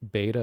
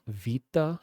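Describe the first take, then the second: First: It is said with an English pronunciation. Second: It is said with a Greek pronunciation. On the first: "instead of beta" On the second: "the Greek alphabet is like alpha, vita"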